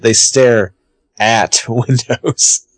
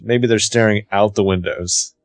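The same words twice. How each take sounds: First: Pause, then "at" drawn out slowly before "windows"; stress on "at". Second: "out" leaned on as the correct word; stress on "out". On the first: Retold or imitated. Mocking Hannah's view of Spencer's movies, stress on "at". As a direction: set "at" apart and stretch it, with a laugh. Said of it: "the way she views Spencer's movie". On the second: Shown as a demonstration. Explaining what Hannah fails to grasp, stress on "out". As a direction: put the weight on "out", softer overall. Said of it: "Hannah doesn't even, like, grasp".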